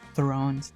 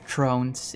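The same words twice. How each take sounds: First: The word begins with a th sound. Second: The word begins with a plain t sound. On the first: "instead of" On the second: "pronounce the th as just a t sound"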